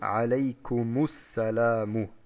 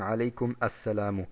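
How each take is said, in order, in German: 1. Ein u-Vokal verbindet kum direkt mit ssalamu. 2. Kum endet, dann beginnt ein separates a assalamu. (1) "hier muss der Hilfsvokal Dhamma eingefügt werden" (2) "Und nicht, dass wir sagen"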